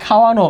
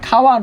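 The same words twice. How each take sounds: First: "খাওয়ানো" with a final o after the n; correct pronunciation. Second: "খাওয়ান" ending on a closed n; written form. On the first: Teacher gives the spoken form, "খাওয়ানো" ending in round o. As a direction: open the end of "খাওয়ানো" into -no. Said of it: "হবে কি". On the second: Teacher cites the word as spelt, "খাওয়ান" ending in n. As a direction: stop "খাওয়ান" at the n, no vowel after. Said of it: "আছে". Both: Shown as a demonstration.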